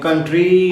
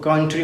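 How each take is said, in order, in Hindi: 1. आखिरी स्वर खींचकर लंबा बोला जाता है। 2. आखिरी स्वर छोटा और जल्दी बोला जाता है। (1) "कंट्री नहीं बोला जाता" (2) "रैपिड बोला जाता है"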